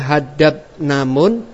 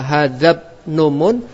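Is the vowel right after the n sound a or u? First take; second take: a; u. First: The n is followed by an a vowel. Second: The n is followed by a u vowel. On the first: Only the final letter carries the case ending. "pendapat pertama mengatakan i'rabnya hanya pada mim" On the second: The last two letters both carry the case ending. "dengan i'rab yang pada dua huruf terakhir"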